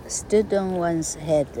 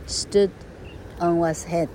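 First: "Stood on one's head" said slowly, "Stood" weighted; slow stress on Stood. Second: Said in the usual way. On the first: Shown as a demonstration. Teacher demonstrating the phrase to children, slow with Stood stressed. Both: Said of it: "叫倒立".

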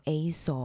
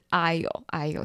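First: "aisle" misread by its spelling as "AY-sul"; common mispronunciation. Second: "aisle" said like "I'll", silent s; correct pronunciation. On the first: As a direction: say "aisle" wrongly, with an s sound. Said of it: "十之八九都会念错". (把aisle错念成带s音的“A-sol”) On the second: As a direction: say "aisle" clearly as "eye-l". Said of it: "这个字是aisle". (正确念aisle，s不发音，像“哎哟”) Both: Shown as a demonstration.

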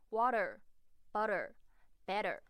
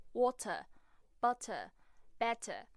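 First: American accent. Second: British accent. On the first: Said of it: "美式口音则是会偏向的的滑音". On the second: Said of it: "在英国腔里面会发出特别的声音". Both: Shown as a demonstration.

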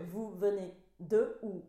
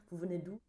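First: "Vous venez de où" slowly, each word apart; "Vous venez de où" taken apart slowly, falling at the end; separated words. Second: "Vous venez d'où" linked as one unbroken string; "Vous venez d'où" in connected everyday French, rising at the end; words run together. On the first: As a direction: split "d'où" into "de où", word by word. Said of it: "它其实就是三个字混在一起". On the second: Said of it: "你找不到断句". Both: Shown as a demonstration.

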